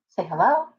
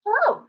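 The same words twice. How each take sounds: First: Said in the usual way. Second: "Hello" much higher, squeaky and rising; a high sing-song hello for the pet; squeaky hello demo. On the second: Shown as a demonstration. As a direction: model the word in a high bird-like pitch.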